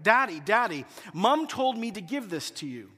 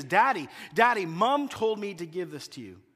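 First: Put-on little girl calling daddy; mild child voice calling out; daughter crying out. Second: Child's call repeated, lightly voiced; little girl calling daddy; a hint of a child calling; daughter calling again. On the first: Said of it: "I hear Hannah cry out". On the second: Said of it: "Again, she says".

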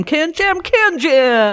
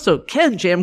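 First: Booming monster truck announcer. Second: Said in the usual way. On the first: Retold or imitated. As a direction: hype it like a truck rally ad. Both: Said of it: "it's like a monster truck commercial".

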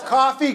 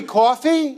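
First: Said in the usual way. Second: Coffee with a rounded "aw" first vowel; New York coffee. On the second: Retold or imitated. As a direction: say "coffee" as "caw-fee", New York style. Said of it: "even though he's not from New York".

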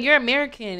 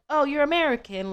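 First: Said in the usual way. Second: Put-on a half-hearted London accent, higher; a quick, light stab at a London accent; attempted London accent. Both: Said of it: "let me not try to do that accent".

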